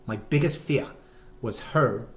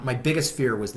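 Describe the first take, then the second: First: Put-on botched British accent, "fear" without its r; muddled fake accent. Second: Said in the usual way. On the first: Dad confesses his worry, in muddled fake British accent. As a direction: say "fear" as "fee-ah" in a faked accent. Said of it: "I don't know what accent that is". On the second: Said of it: "I'm dropping the accent".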